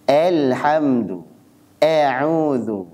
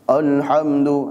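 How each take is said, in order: First: Alhamdu with the a pushed thin towards e, slow; overly thin reading. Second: Alhamdu with a thick, dark a, slow; heavy wrong reading. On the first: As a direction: Alhamdu stretched too thin, like elhamdu. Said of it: "Ini berlebihan". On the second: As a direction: alhamdu said heavy, not thin. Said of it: "Nah, jadi tebal". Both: Shown as a demonstration.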